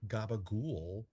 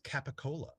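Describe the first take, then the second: First: The word is clipped, ending in 'gool'. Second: The word is said in full, ending in 'cola'. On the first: This is the local New Jersey way of saying it. "unusual pronunciations of cured meats" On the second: This is the familiar way of saying it. "you are already familiar with"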